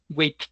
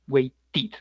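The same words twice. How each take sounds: First: The ending is said without an extra vowel. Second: The ending is said with an extra vowel. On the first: The speaker calls it wrong. "si no sonaríamos como, sonaría como waited, que es difícil de pronunciar" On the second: The speaker calls it right. "necesitamos un sonido vocálico adicional"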